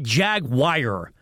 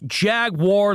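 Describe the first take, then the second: First: The second syllable sounds like 'wire'. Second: The second syllable sounds like 'war'. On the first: The speaker calls it wrong. "Not Jag-wire" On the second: The speaker calls it right. "like Star Wars, right?"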